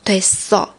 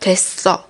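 First: It sounds slightly impatient and annoyed. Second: The same.

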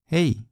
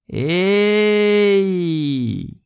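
First: It is said in a plain, neutral way. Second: It is said with the most enthusiasm and energy. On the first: It is just a normal hello. "就是Hola 的意思" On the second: A close friend has not been seen for a long time. "如果对方是非常好的朋友，也你很久没有见过他"

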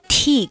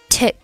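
First: The vowel is long and tense. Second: The vowel is short and lax. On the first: The speaker calls it wrong. "示范一下错误的发音" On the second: The speaker calls it right. "正确的发音应该是"

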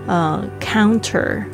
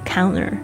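First: The t after n is clearly pronounced. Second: The t after n is dropped. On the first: "比如说counter" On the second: "可能有时候你会听到变成counter"

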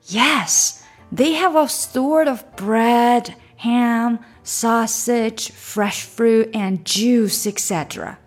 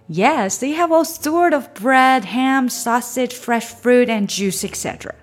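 First: The sentence is read at a slower pace. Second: The sentence is read at a faster pace. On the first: "整句连着读一遍。" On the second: "加快一点。"

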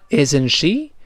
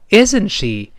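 First: The pitch rises at the end. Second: The pitch falls at the end. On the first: The speaker is asking for the listener's opinion. The speaker calls it wrong. "如果你读成isn't she，那就要征求对方意见了" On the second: The speaker is already sure and expects no answer. The speaker calls it right. "注意这个isn't she 在这里一定要降调"

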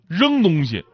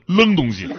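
First: The initial r sound is said the standard way. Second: The initial r is swapped for another consonant.

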